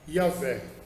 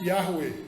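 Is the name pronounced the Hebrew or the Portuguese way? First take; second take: Portuguese; Hebrew. First: The name is pronounced the Portuguese way. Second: The name is pronounced the Hebrew way. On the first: "Na nossa pronúncia hoje, nós costumamos dizer" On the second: "No hebraico"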